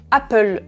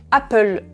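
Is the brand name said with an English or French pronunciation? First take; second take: French; French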